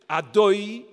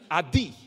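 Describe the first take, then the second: First: The vowel after the d sounds like oy. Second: The vowel after the d sounds like ee. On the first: The speaker calls it right. "There's two ways of saying cholam. You can say cholam" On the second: The speaker calls it wrong. "like it's a chirik, as if it's a chirik"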